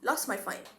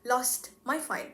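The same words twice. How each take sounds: First: The t sound in lost is dropped. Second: The t sound in lost is pronounced. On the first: The speaker calls it right. "the t sound in lost ... is eliminated" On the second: The speaker calls it wrong. "we don't pronounce it as in"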